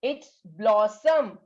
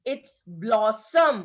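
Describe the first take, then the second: First: "blossom" stretched very slowly, falling tune; slow model reading. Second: "blossom" drawn out very slowly, bl stressed; slow model reading. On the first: Teacher modelling the word "It's blossom" again, very slow. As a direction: sound out "It's blossom" slowly for children to repeat. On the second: Teacher modelling the word "blossom" for the class, very slow. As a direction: read "it's blossom" very slowly so kids copy. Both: Shown as a demonstration. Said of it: "Try to read with me".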